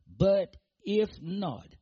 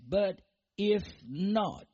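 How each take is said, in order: First: "if" stretched out slowly and loudly; stress on IF. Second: "if" drawn out slowly, lightly stressed. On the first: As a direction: lean hard on "if", slowly. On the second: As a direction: repeat "if" slowly, with weight. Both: Shown as a demonstration. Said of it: "notice that".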